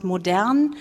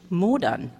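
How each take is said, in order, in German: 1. Die Betonung liegt auf der zweiten Silbe. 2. Die Betonung liegt auf der ersten Silbe.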